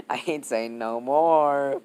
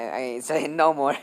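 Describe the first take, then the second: First: NO MORE stretched out slowly; slow right down on "no more"; drawn-out refusal. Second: Said in the usual way. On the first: Real, not acted. Storyteller dodging the rude detail, NO MORE drawn out slowly.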